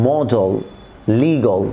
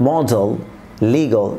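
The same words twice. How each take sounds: Both takes have the same delivery.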